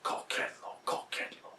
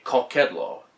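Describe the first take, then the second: First: Hushed, voiceless whisper; cultist whisper. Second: Said in the usual way. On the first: Retold or imitated. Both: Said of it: "That's when they whisper that".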